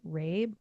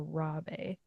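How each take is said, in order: First: "Rabe" as one syllable, rhyming with babe; one-syllable pronunciation. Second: "Rabe" as two syllables, RAH-bay; two-syllable pronunciation. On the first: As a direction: say "Rabe" like RAYB, with a silent e. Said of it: "if he pronounces it Rabe". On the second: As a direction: say "Rabe" with an open a and a sounded final e. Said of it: "with, like, a little tilde on the E". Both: Shown as a demonstration.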